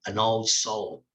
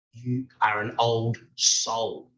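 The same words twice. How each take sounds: First: Said in the usual way. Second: Put-on slow, weighty, stressing "old" in "You are an old soul"; slow emphatic statement. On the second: Shown as a demonstration. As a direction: lean on "old", drawn out and solemn.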